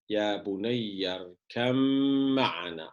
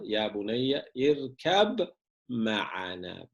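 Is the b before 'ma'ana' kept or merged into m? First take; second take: merged; kept. First: The b merges into the following m sound. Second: The b is pronounced clearly before the m. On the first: "Kur'an'da ne var arkadaşlar?" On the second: "Aslı"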